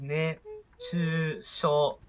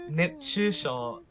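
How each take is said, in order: First: The word is drawn out very slowly. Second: The word is said at normal speed. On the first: It sounds like an invitation to kiss. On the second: It means heat stroke.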